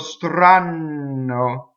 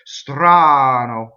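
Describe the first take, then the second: First: The N sound is held long. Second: The N sound passes very quickly. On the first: The speaker calls it wrong. "that's double N" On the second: The speaker calls it right. "the N goes by so fast it has no chance to hang on"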